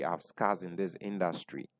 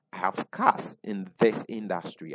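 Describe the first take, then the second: First: Quiet, heavy restatement of "scars"; softer repeat. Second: Said in the usual way. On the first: Real, not acted. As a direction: lower and softer, a sober echo of "I have scars in this industry". Repeated line for emphasis.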